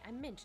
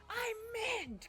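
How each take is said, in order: First: It is said softly and gently. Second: It is said loudly and forcefully. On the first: The flavor is only a gentle hint. The speaker calls it right. "I like mint, but I like, hi" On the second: The flavor is overpowering. The speaker calls it wrong.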